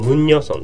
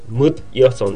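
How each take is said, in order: First: An n sound links the two words together. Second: The words are said without an inserted n sound. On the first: "ムンニョソンっていう風に発音できます" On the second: "ムッヤソンって言うんだけど"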